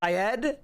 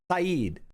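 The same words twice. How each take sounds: First: Syed said as sigh-ED with a questioning rise; unsure second attempt at Syed; corrected pronunciation. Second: Saeed said as sah-EED, two syllables with a long ee; a tentative first try at Saeed; fumbling the name Saeed; wrong pronunciation. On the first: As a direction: try Syed again, checking if it's right. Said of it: "Syed, that's what I said". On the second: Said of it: "I can't pronounce words". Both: Shown as a demonstration.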